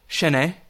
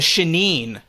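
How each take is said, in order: First: The word has a French-sounding pronunciation. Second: The word has an English-sounding pronunciation. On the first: The speaker calls it right. "French wine. Pretty sure it would be" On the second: The speaker calls it wrong. "they're saying it wrong"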